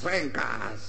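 The first vowel is a mid 'e' sound. This is how a Javanese speaker says the town name. The speaker calls it wrong. "Emang lisan Jawa mah kos kitu"

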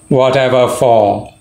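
The stress falls on 'ever'. The father refuses to let it happen. "Whatever for, ever, stress on ever"

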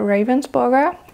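The name is pronounced the English way. "That's just the English way to say it"

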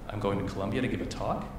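The pitch rises at the end. It asks a question. "is a question, and I use pitch rise at the end of that"

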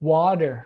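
It is said with an American accent. "คนอเมริกาครับ"

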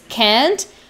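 It is said in an American accent. "para americanos"

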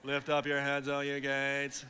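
It is read flatly, with little excitement. The speaker calls it wrong. "Not like this"

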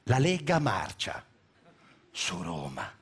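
There is a pause right after marcia.

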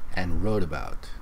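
The words are run together in natural rhythm. The speaker calls it right. "instead of saying, and wrote about. That could be improved"

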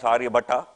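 The name is pronounced as in Tamil Nadu. "In Tamil Nadu, we call him as Aryabhatta"

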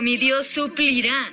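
The stress falls on the word suplirá. The provision is a certain promise. "Y es una promesa, ... la palabra suplirá"

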